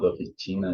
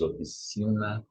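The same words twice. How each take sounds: First: Oficina with a t sound, ofitina; wrong pronunciation. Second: Oficina with a soft s, ofisina; right pronunciation. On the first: Teacher showing students the wrong oficina. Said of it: "it's not oficina". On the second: Teacher giving students the correct oficina. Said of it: "it's oficina". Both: Shown as a demonstration.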